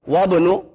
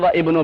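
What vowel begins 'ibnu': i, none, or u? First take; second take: none; i. First: The vowel is dropped and the words join together. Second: The word ibnu begins with a separate i vowel. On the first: The speaker calls it right. "क्या पढ़ेंगे मिला के?" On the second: The speaker calls it wrong. "ना वह इब्नो पढ़ेंगे"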